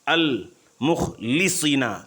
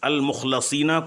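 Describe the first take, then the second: First: The vowel after the L is 'i'. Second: The vowel after the L is 'a'.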